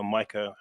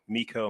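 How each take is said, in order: First: "mica" said MY-kuh, like the mineral; alternative pronunciation. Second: "mica" said MEE-kuh, with a long ee; alternative pronunciation. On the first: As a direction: say "mica" with an eye sound, MY-kuh. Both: Shown as a demonstration. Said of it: "however you want to pronounce it".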